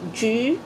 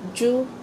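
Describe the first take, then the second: First: The vowel sounds closer to 'ju-e'. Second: The vowel is a plain 'oo' sound. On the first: The speaker calls it right. "kundi, 橘" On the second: The speaker calls it wrong. "hindi siya ju"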